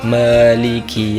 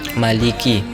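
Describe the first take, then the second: First: The first vowel is drawn out long. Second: The first vowel is short, not lengthened. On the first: The speaker calls it right. "seharusnya dibaca" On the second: The speaker calls it wrong. "tidak dibaca mat"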